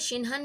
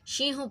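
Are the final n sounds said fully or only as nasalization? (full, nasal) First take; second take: full; nasal. First: The n sounds are pronounced fully. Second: The n sounds are silent, only nasalized. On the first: The speaker calls it wrong. "शिनहन नहीं पढ़ेंगे" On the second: The speaker calls it right. "दोनों नून जो है silent है मगर नाक में आवाज आएगी"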